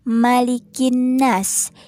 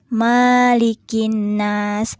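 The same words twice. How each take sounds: First: The vowel after the m is short. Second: The vowel after the m is long. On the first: The speaker calls it right. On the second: The speaker calls it wrong.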